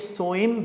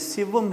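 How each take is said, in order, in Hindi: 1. शब्द 'so' से शुरू होता है, इसे soim बोला जाता है। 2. शब्द 'si' से शुरू होता है, इसे sivam बोला जाता है। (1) "ये सोइम बिल्कुल नहीं है" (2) "सिवम है"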